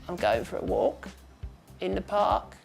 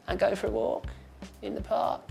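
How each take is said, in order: First: It is quiet, breathy and creaky, fairly flat. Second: It is quiet, breathy and creaky, fairly flat.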